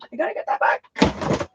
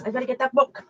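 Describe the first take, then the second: First: A high, breathy whisper. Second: Said in the usual way. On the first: Real, not acted. Aunt muttering to herself while rushing off for the book, whispered. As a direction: whisper it to yourself, higher.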